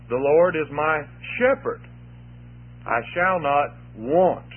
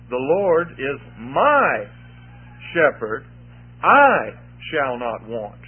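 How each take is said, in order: First: The stress is on the word Lord. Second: The stress is on the words my and I.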